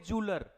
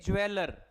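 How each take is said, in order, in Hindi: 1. शब्द 'joo' ध्वनि से शुरू होता है। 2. शब्द 'jweh' ध्वनि से शुरू होता है। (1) "इसको क्या बोलोगे, जूलर" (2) "ये ज्वेलर बिल्कुल भी नहीं है"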